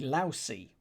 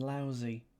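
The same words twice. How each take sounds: First: The middle consonant is a hissing s sound. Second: The middle consonant is a buzzing z sound. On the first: The speaker calls it right. "Sort of more of a s than a z" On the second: The speaker calls it wrong. "rather than"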